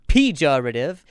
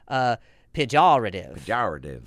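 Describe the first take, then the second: First: The second syllable is said without a 'jaw' sound. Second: The second syllable is said like 'jawr'. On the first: "You can stress any part of this word and be correct" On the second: "they got the fucking Louisiana. ... It literally says that, J-A-W-R"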